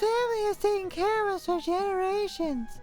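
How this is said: It is said in an imitated character voice.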